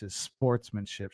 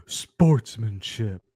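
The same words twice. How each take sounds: First: Said in the usual way. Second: Slow, drawn-out mocking word; slow mocking Sportsmanship; mocking crowd quote. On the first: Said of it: "if that's your response". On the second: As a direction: sneer the word Sportsmanship slowly as the crowd would. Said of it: "the crowd who's like".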